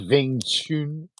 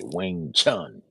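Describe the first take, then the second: First: The name begins with a V sound. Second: The name begins with a W sound. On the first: "Some like to pronounce it with a V" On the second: "us more American types like to say"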